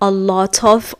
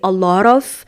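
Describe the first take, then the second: First: Each word is said fully and separately. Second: The words are reduced and run together. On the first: The speaker calls it wrong. "I don't say" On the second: The speaker calls it right. "I say"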